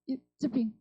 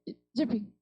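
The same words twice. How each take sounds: Both takes have the same delivery.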